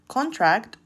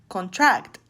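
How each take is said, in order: First: The stress is on the first syllable. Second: The stress is on the second syllable. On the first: It is a noun. "In the former, the stress is in the first syllable" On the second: It is a verb. "while in the latter is in the second syllable"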